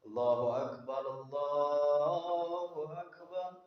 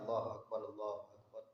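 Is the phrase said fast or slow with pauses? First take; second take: slow; fast. First: It is said slowly with gaps between phrases. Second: It is said quickly with no gaps. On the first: It is meant to reach people far away. "Ada jeda" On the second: It is meant for people already present.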